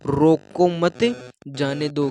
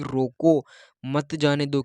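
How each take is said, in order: First: रोको मत run together, pause, then जाने दो; group मत with रोको, then release जाने दो separately; pause after मत. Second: रोको alone, then मत जाने दो together; pause after रोको. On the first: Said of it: "वो क्या सुना कि". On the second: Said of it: "गाँव वाले तो ये कह रहे थे". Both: Shown as a demonstration.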